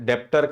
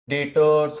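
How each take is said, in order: First: The word is said with a b-like sound. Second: The word is said with no b sound. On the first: The speaker calls it wrong. "समझ जाएगा कि कितने बड़े accountant हो।" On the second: The speaker calls it right. "डेटर्स में बी जो रहता है वो क्या रहता है? साइलेंट रहता है।"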